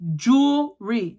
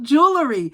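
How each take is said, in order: First: It is said as jool-ree, two syllables. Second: It is said with an extra middle syllable. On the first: The speaker calls it right. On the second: The speaker calls it wrong.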